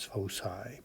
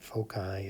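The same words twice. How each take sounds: First: The middle consonant is an S sound. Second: The middle consonant is a hard K sound. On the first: The speaker calls it right. "pronounced with an S sound" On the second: The speaker calls it wrong. "not a, a hard C sound"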